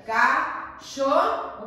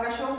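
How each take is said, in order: First: "cachorro" split slowly into its syllables. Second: Said in the usual way. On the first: Shown as a demonstration. Teacher showing the class syllable separation, "cachorro" said slowly in pieces. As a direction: break "cachorro" up with clear gaps between syllables. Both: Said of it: "se nós fôssemos separar".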